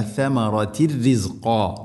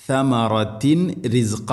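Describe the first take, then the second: First: സമറത്തിൻ റിസ്ഖ with the n merged into the ra; സമറത്തിൻ റിസ്ഖ said properly, n blended away; സമറത്തിൻ റിസ്ഖ run together as correct recitation; correct reading. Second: സമറത്തിൻ റിസ്ഖ with the final n said clearly before ra; സമറത്തിൻ റിസ്ഖ mispronounced, nasal n kept; സമറത്തിൻ റിസ്ഖ as the wrong example, n not merged; wrong reading. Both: Shown as a demonstration. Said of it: "എന്നല്ല".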